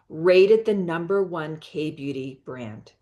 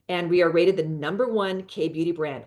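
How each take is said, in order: First: It is said slowly. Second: It is said fast.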